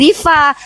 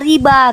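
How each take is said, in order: First: The middle consonant is a v sound. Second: The middle consonant is a b sound. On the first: This is the name's original form. The speaker calls it right. "nama aku aslinya Riva" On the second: This is how foreign speakers who cannot say v say it. The speaker calls it wrong. "orang Spanyol nggak bisa panggil V dia bilang Riba"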